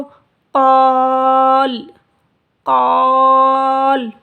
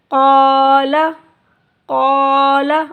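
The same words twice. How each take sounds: First: क़ाल very slow and loud, closing on a silent ल; pausal form. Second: क़ाला with the second ला fully voiced, short; connected reading. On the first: Teacher shows the pause reading क़ाल, slow and loud. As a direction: stretch क़ाल and stop dead on the ल. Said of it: "तो साकिन कर देंगे लाम को". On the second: Teacher recites क़ाला for pupils, louder. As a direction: say क़ाला with both syllables open, the final ला ending on a vowel. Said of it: "जब हम इस पे वक्फ़ करेंगे तो साकिन कर देंगे". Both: Shown as a demonstration.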